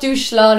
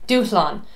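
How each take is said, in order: First: The middle has an English 'sh' sound. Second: The middle has no English 'sh' sound. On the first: The speaker calls it wrong. "It's not douchlan. It doesn't have anything to do with the shower" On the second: The speaker calls it right. "So you don't hear that S H"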